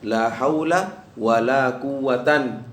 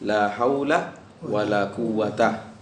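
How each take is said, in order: First: The last word ends in an. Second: The last word ends in a short a. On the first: "wan nasbu" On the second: "Al-fathu berarti bisa bilang"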